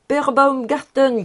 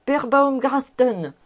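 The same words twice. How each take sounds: First: Calling out. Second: Calling out again. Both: A narrator's reading. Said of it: "criait le professeur Speck".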